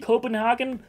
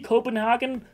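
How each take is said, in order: First: The name is said in an odd, playful way. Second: The name is said in an odd, playful way.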